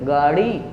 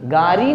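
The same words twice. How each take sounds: First: The middle consonant is a quick tongue flap. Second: The middle consonant is a full d stop. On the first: The speaker calls it right. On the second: The speaker calls it wrong.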